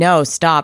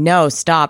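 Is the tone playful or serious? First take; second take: serious; serious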